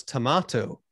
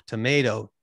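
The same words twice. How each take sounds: First: Tomato said toh-MAH-toh with a broad ah vowel; tomato the way his mother said it; British tomato. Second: Tomato said toh-MAY-toh with an ay vowel; tomato the Canadian way; American tomato. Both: Shown as a demonstration. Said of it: "I couldn't say tomato".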